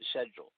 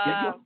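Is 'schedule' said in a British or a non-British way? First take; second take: British; non-British. First: It is said with a British pronunciation. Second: It is said with a non-British pronunciation.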